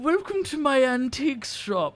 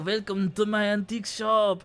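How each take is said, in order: First: It is spoken with a posh British accent. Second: It is spoken with a French accent. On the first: This is the greeting the shopkeeper actually gave. "he had the poshest British accent I have ever heard" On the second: This is the greeting the visitors expected to hear. "we expect to be greeted like, ah, bonjour"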